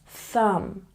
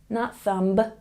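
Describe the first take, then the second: First: The final B is silent. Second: The final B is pronounced. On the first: The speaker calls it right. "when B comes after the letter M in a word, we don't say it" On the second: The speaker calls it wrong.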